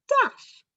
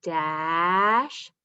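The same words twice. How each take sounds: First: "math" said short and much higher; quick answer. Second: "Math" drawn out as a slow blend. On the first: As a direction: pop the answer out brightly. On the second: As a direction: stretch it while blending. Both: Shown as a demonstration. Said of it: "Blend it all together".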